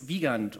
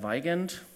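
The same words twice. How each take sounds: First: The name is said in a non-American way. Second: The name is said in an American way.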